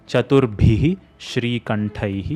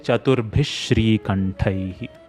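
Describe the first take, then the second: First: An echo vowel follows Chaturbhih before Shri. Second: Chaturbhih runs straight into Shri without vowel. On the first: "Instead of saying" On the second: "you can just say"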